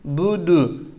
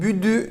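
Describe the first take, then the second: First: The vowels are pronounced full and rounded. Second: The vowels are pronounced very thin and fronted. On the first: The speaker calls it right. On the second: The speaker calls it wrong.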